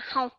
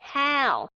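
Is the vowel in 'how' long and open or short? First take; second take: short; long and open. First: The vowel is short and clipped. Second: The vowel is clear, open and slightly drawn out. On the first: The speaker calls it wrong. "chứ không phải là how" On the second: The speaker calls it right. "phải đọc rõ âm và hơi kéo dài một chút xíu"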